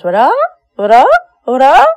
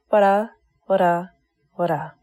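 First: The voice rises at the end like a question. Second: The voice falls at the end like a statement.

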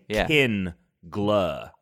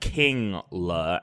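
First: The first syllable is 'kin', then 'gla'. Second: The first syllable is 'king', then 'la'. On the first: This is how the speaker pronounces it. "I'm saying Kin-gla" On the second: This is how the other person pronounces it. "You're saying it like King-la"

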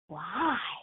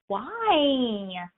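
First: It is said in a gentle tone. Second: It is said in an accusatory tone.

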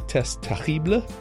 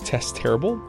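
First: The name is said with French pronunciation. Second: The name is said with English pronunciation.

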